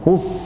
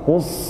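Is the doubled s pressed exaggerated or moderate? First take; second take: exaggerated; exaggerated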